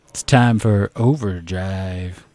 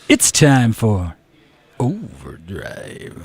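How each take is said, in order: First: It is said with weak, underwhelming energy. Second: It is said with strong, punchy energy.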